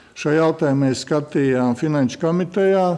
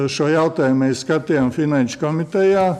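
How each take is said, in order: Both takes have the same delivery.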